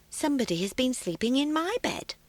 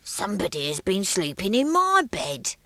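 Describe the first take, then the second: First: It is said in a quiet, gentle voice. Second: It is said in a deep, growly voice.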